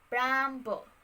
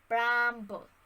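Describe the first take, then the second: The two takes are said the same way.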